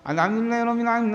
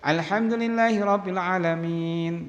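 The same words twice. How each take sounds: First: The recitation runs on after 'alamin' without stopping. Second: The recitation stops fully after 'alamin'. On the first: The verses are recited joined together without breaks. The speaker calls it wrong. "Aja bacaan tadi yang pertama" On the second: Each verse is recited separately, one at a time. The speaker calls it right. "ini bacanya putus"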